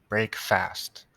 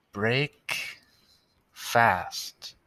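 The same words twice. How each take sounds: First: "Break fast" as two distinct words, no pause; split into two words. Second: "break" and "fast" said as two separate words with a pause; split into two words. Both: Shown as a demonstration. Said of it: "That's how I always remember how to spell it".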